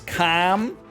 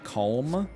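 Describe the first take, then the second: First: The L in the word is silent. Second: The L in the word is pronounced. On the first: The speaker calls it right. "It's calm" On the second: The speaker calls it wrong. "you write a letter, I pronounce it"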